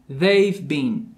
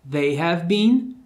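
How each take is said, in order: First: Have shrinks to a v joined to they. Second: The word have is said fully and separately.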